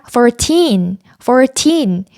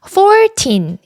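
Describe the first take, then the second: First: Put-on "fourteen" with TEEN raised and stressed. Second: Put-on "fourteen" stressed high on FOUR, weaker teen; stress on first syllable. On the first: Teacher modelling it for learners, stress on final syllable. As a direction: put the weight on the end of "fourteen". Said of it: "뒤에 나오는 틴에 강조해서". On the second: Teacher showing learners what to avoid, first-syllable stress. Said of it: "이게 아니라". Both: Shown as a demonstration.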